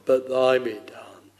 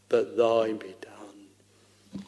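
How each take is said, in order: First: Said in the usual way. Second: Slow hushed whisper of surrender; whispered prayer. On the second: Acted. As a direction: breathe the prayer out, barely voiced. Christ's prayer in Gethsemane, whispered.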